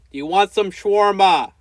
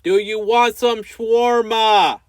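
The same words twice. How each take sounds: First: Said in the usual way. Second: "Do you want some shawarma?" drawn out slowly and higher; slow insistent repeat. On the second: Acted. The pushy friend repeating the offer slowly to the silent doctor. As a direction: stretch every word of "want some shawarma" as if to a child. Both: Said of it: "repeated offer".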